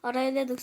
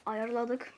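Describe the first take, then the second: First: "Arayladık" with the r and y swapped; slip of the tongue. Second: "Ayarladık" said softly with y before r; quietly fix the slip to "Ayarladık"; corrected pronunciation. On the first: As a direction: garble ayarladık into "Arayladık" by accident. (dil sürçmesiyle "Arayladık") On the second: (dil sürçmesini düzelterek "Ayarladık") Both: Real, not acted. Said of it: "Arayladık ne?".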